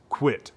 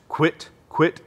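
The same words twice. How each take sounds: First: Quick quit at the call's front; duck quack, front of call. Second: Short clipped quit syllables; duck quack, back of call. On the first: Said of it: "when you put that in the front of the call, it's gonna sound like this". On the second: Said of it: "this is what it sounds like in the back of the call". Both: Shown as a demonstration.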